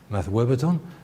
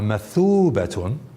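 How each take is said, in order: First: The middle has a w followed by a. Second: The middle has a long oo vowel. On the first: This is a rare variant reading of the word. "a dot which is indicating a pronunciation of a w" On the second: This is the standard reading of the word. "there's nothing on the wow at all. It's like sukun"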